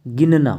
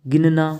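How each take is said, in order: Both takes have the same delivery.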